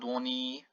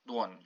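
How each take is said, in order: First: The final I vowel is full and clear. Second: The final I vowel is shortened. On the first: The speaker calls it wrong. "So not dłoni" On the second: The speaker calls it right. "It's like N with a shortened I"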